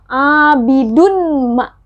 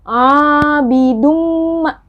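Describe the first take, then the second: First: A separate n sound is heard before m. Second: The n merges into a nasalized double m. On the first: The speaker calls it wrong. "sudah tidak terdengar abidunma" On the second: The speaker calls it right. "Tapi bacanya adalah abidumma"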